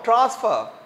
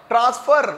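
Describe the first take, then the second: First: The final r sound is soft or silent. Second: The final r sound is strongly pronounced. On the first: The speaker calls it right. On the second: The speaker calls it wrong.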